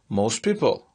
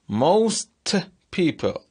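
First: The t at the end of most is dropped. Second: The t at the end of most is pronounced.

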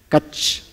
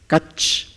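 No difference in how they are said.

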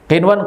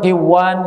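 First: The n sound is pronounced clearly. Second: The n sound is merged into the w. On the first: The speaker calls it right. "Idhar mutlak" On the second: The speaker calls it wrong. "enggak boleh"

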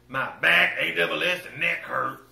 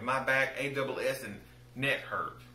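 First: It is said in a put-on, imitated voice. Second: It is said in the speaker's own normal voice. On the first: The speaker calls it right. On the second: The speaker calls it wrong.

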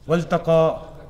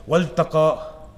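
First: The l sound is brushed over into the t. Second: The l sound is brushed over into the t.

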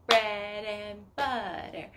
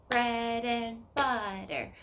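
The two takes are said the same way.

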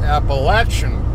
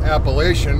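First: It is said the way locals say it. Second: It is said the way taught up north. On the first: This is the pronunciation used by people living there. The speaker calls it right. "folks that live in said mountain range that say it's Appalachian" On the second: This is the pronunciation taught in northern schools. The speaker calls it wrong. "up north, when we went to school, we were taught Appalachian"

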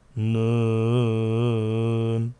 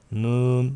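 First: The vowel is held long, about four counts. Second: The vowel is short and not held. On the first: The speaker calls it right. "dört saniye civarı uzat demektir" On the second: The speaker calls it wrong. "Nun değil"

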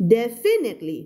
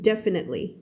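First: The stress is on a later syllable. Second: The stress is on the first syllable. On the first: The speaker calls it wrong. "ไม่อ่าน" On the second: The speaker calls it right. "stress คำแรกตรงนี้นะจ๊ะ"

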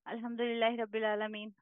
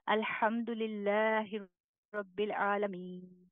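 First: It is recited quickly in one breath. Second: It is recited slowly with pauses.

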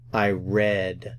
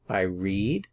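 First: The vowel in read is short, like red. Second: The vowel in read is long, like reed. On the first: The reading happened before now. "In the past" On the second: The reading happens now or habitually. "I read in the present"

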